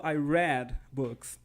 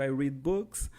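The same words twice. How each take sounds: First: Read is pronounced as the past-tense form. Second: Read is pronounced as the present-tense form. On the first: The reading happened in the past. "Mas no passado" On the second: The reading happens habitually now. "Se eu digo que eu leio livros"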